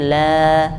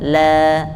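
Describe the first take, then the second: The two takes are said the same way.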